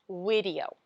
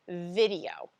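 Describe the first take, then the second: First: The word begins with a w sound. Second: The word begins with a v sound. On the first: The speaker calls it wrong. "the sound can be over-applied as video" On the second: The speaker calls it right. "instead of video"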